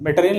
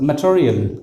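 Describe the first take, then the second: First: "मटेरियल" starting with a full may; mistaken material. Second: "मटेरियल" as muh-cho-ri-yal; weak muh, then aspirated ch-like T in "मटेरियल"; corrected material. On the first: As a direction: say "मटेरियल" as meh-teh-ri-yal. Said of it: "मटेरियल नहीं". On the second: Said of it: "अ है ना". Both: Shown as a demonstration.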